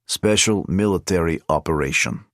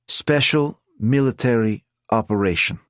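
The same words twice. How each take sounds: First: The three words run together without pauses. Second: There is a pause after each of the words.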